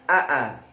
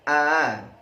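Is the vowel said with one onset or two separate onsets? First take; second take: two; one. First: Two separate a sounds with a catch between. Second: One smooth, eased a sound without a catch. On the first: This is the original spelling with two hamzas. "Asalnya aa" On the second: The second hamzah is eased. "dimudahkan menjadi a"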